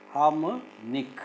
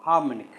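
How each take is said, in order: First: Slow "harmonic", broken before a rising last syllable; "harmonic" stretched out in pieces. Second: Said in the usual way. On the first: Shown as a demonstration. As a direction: split "harmonic" with a clear gap before NIC. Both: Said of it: "Can you syllabify these words?".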